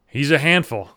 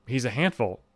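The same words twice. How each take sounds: First: Lightly voiced proud pet owner; a hint of the neighbor's voice; neighbor impression. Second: Softer, doubting echo; understated puzzled repeat to oneself; skeptical inner thought. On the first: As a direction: say it as a neighbor boasting about his dog. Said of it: "I remember fat guy saying". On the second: Retold or imitated. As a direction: quietly question what you just heard. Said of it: "And I remember thinking".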